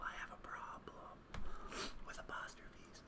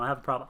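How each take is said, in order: First: Mock-confessional whisper. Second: Said in the usual way. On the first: Player confessing an apostrophe habit, whispered. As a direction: whisper it like a guilty secret.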